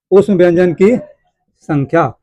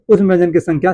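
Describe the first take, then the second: First: Very slow, long gap before the last word; slow dictation. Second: Said in the usual way. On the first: Shown as a demonstration. Teacher dictating key points to students, very slow and spaced. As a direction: dictate it at writing speed.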